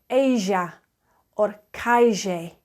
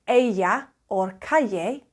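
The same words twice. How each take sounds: First: The double L is said the Buenos Aires way. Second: The double L is said the standard Spanish way. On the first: "you'll hear people say ella or calle" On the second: "instead of saying ella or calle"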